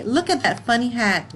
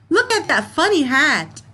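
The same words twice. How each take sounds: First: Said in the usual way. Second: Excited exclamation. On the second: Shown as a demonstration. Teacher reading a funny-hat sentence to her class, excited. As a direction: read it out louder and higher, with a lift on Look. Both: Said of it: "you laugh or you make a comment".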